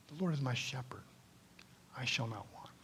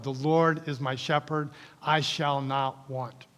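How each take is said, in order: First: Hushed unvoiced recitation; whispered. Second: Said in the usual way. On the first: Shown as a demonstration. Pastor showing the congregation how to whisper the verse in meditation. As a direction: whisper the verse under your breath. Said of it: "something absolutely crazy like this". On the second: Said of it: "I just know it".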